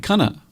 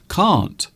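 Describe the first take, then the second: First: It ends with a short uh vowel. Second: It ends with a clear t sound.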